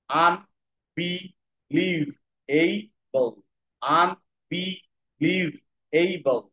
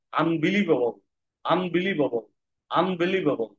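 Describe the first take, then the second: First: unbelievable stretched out very slowly, each of five syllables apart. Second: Said in the usual way. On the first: Shown as a demonstration. Teacher breaking a word into syllables for students, very slowly. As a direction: sound out unbelievable one syllable at a time, very slowly. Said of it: "এটা পাঁচটা syllable word". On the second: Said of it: "আমরা পুরোটাই কিভাবে পড়বো?".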